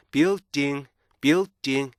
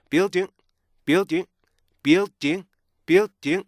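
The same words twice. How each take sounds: First: BUILDING in beats, ding left to ring; "building" with an open NG ending; unstopped ending. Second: BUILDING higher, ding cut off by an unreleased T; "building" with a sudden stop after ding; stop at end. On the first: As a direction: let the end of "building" hum on. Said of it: "이렇게 읽는 보다는요". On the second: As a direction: shut off the end of "building" abruptly. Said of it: "T의 스탑 사운드를 뒤에 맨 뒤에". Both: Shown as a demonstration.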